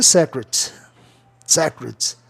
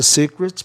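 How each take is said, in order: First: "secret" as SEK-ret, short open E; expected regular pronunciation. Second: "secret" as SEE-cret, long E; accepted pronunciation. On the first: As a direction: say "secret" starting like the word sec. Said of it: "deveria ser". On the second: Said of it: "a pronúncia secret pegou mais". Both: Shown as a demonstration.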